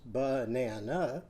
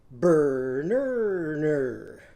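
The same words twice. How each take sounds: First: "banana" said plainly and slowly, three syllables. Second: "Burner" with every vowel turned to er, louder. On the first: Teacher models "banana" before changing its vowels. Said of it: "Banana has one, two, three syllables". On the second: Teacher turns "banana" into "Burner" for the song. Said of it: "So now it's going to be what". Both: Shown as a demonstration.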